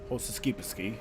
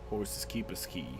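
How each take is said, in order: First: The phrase is said very fast, run together. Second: The phrase is said at an ordinary speed.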